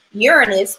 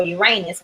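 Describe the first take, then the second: First: "Uranus" with stress on the opening syllable, short unstressed middle; first-syllable stress. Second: "Uranus" with stressed middle syllable rhyming with "ray"; alternative pronunciation. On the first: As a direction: say "Uranus" as YOOR-uh-nus. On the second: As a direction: say "Uranus" as yoo-RAY-nus. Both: Shown as a demonstration. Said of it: "however you wanna pronounce it".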